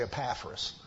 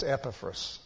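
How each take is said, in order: First: "Epaphras" stressed on the second syllable; habitual mispronunciation. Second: "Epaphras" stressed on the first syllable; correct pronunciation. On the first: Preacher admitting how he always says the name, second-syllable stress. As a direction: say "Epaphras" as uh-PAF-ras. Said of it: "I always say". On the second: Preacher correcting himself on the name, first-syllable stress. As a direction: say "Epaphras" as EP-uh-fras, quick middle vowel. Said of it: "That's the right way to pronounce that". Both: Shown as a demonstration.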